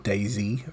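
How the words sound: The Z is said as 'zee', American style.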